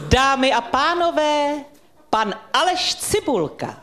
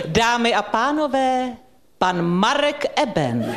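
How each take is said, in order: First: Slow, ceremonious introduction, higher and drawn out; grand announcer voice. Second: Slow, formal announcement of the host; grand announcer voice. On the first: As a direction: make his childhood dream come true with a gala entrance. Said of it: "Tak já vám ten dětský sen splním". (slavnostní uvedení, pomalu a výš) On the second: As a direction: announce him like a gala evening opener, drawn out. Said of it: "poprosil bych s tou dikcí". (slavnostní hlasatelka, pomalu a vznešeně) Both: Pretend.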